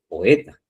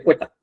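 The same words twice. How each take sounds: First: The o and e are in separate syllables. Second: The o and e merge into one syllable. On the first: The speaker calls it right. "dice poeta" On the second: The speaker calls it wrong. "usted no dice poeta"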